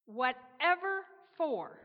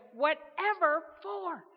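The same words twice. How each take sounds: First: Slow, louder, incredulous asking; baffled question. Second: Louder, higher, slow incredulous burst; blurted out. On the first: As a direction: stretch it out in disbelief. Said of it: "Gabriel asked". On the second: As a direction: blurt it out in disbelief again. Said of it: "once again blurted out". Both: Acted.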